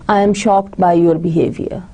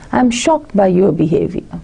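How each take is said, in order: First: It is said flat with no stress. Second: It is said with emotion and stress.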